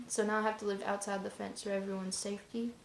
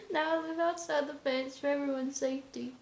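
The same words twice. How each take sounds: First: Said in the usual way. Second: High-pitched, just out of a laugh; real amusement lifting the voice high; amused repeat. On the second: Real, not acted. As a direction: say it through leftover laughter, pitched up. Repeats the line after laughing.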